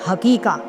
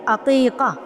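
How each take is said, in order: First: The word begins with an h sound. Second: The word begins with a throaty ain sound. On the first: The speaker calls it wrong. "इस लफ्ज़ का सत्यानाश करते हुए हमारे इलाके में कहा जाता है हकीका" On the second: The speaker calls it right. "आइन से"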